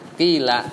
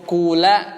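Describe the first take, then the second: First: The first vowel is a pure i sound. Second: The first vowel is a pure u sound. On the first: "poin pertama aja" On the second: "di dhammah fa-nya"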